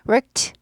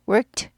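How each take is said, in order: Both takes have the same delivery.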